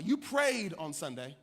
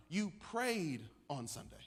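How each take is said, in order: First: Said in the usual way. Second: "prayed" drawn out slowly, with a pause after; weighty emphasis on PRAYED. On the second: Retold or imitated. Sick man correcting the young preacher, weighty emphasis on "prayed". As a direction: lean slowly and meaningfully on "prayed".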